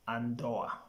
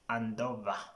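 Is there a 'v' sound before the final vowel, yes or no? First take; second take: no; yes. First: No 'v' sound comes before the final vowel. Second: A 'v' sound comes before the final vowel. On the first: The speaker calls it right. "the correct pronunciation is andoa" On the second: The speaker calls it wrong. "You find some people saying andova"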